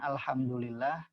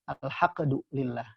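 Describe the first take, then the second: First: The middle consonant is an m sound. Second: The middle consonant is a q sound. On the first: The speaker calls it right. "harusnya mim" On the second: The speaker calls it wrong. "tapi menjadi qaf"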